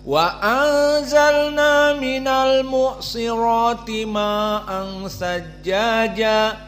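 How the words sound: The vowel is held only briefly. "hanya dua harokat"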